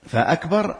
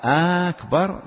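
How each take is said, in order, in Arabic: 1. الحركة الأولى قصيرة. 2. الحركة الأولى تُمَدّ مدًّا طويلًا. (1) "همزة قطع كما قلنا" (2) "لكان استفهاما ولم تنعقد"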